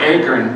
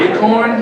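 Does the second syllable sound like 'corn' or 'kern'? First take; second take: kern; corn. First: The second syllable sounds like 'kern'. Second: The second syllable sounds like 'corn'. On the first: "No, I mean acorn" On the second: "you mean acorn?"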